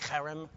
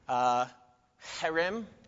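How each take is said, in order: First: The word starts with a throaty ch sound. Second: The word starts with a plain h sound.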